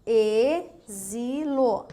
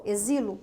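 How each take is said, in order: First: "Exilo" very slowly as "e-zi-lo", with voiced z; sound of Z. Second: Said in the usual way. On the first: Shown as a demonstration. Teacher showing X sounding like Z, syllable by syllable. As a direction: stretch every syllable of "Exilo". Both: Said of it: "mas tem um som de Z".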